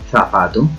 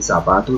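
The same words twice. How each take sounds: First: The z is pronounced like a th sound. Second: The z is pronounced like an s sound. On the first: This is how Spaniards say it. "ellos dicen zapato" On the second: This is how it is said in Latin America. "Los españoles no dicen zapato"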